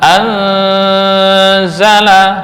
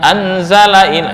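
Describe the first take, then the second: First: The n is nasalized and held longer. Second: The n is plain, with no nasal hum. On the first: The speaker calls it right. "bisa anzala" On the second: The speaker calls it wrong. "bukan anzalain, itu dengungnya nggak ada"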